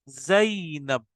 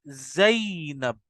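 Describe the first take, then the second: No difference in how they are said.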